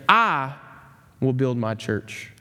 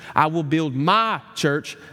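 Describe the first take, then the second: First: The word "I" carries the stress. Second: The word "my" carries the stress.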